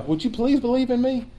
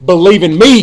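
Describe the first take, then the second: First: High, soft, timid asking; softly pitched-up polite plea; mock pleading request. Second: Loud, forceful order; commanding, punched-out imperative; firm command. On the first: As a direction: ask meekly, as if begging a favor. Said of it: "This isn't a request". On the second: Acted. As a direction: give it as an order, not a request. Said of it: "It's a command".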